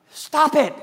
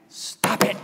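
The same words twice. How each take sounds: First: "Stop it" barked high and loud; "Stop it" shouted sharply, high and loud; firm command. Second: "Stop it" breathed as a toneless whisper; "Stop it" whispered, unvoiced; whispered command. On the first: Acted. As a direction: slam down "Stop it" as an order. Preacher commanding congregation. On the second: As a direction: drop "Stop it" to a hushed whisper. Preacher repeats command softly.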